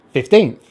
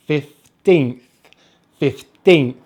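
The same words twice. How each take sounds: First: Said in the usual way. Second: Put-on "fifteenth" split, with weight on teenth; fif, then a firm teenth in "fifteenth"; stress on second syllable. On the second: Shown as a demonstration. Teacher drilling stress for learners, "fifteenth" stressed on teenth. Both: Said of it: "Make sure to stress the second syllable".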